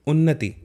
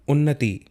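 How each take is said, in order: Both takes have the same delivery.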